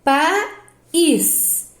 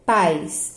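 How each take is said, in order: First: "país" as PA, pause, ÍS, higher; separated syllables. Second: "pais" as one syllable, lower; pais all together. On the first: Teacher dividing the word for pupils, clear gap between syllables. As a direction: split "país" into two long beats. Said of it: "eu separo". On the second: Teacher showing it cannot be divided, one joined syllable. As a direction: glide AI in "pais" without a break. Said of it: "é tudo junto". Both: Shown as a demonstration.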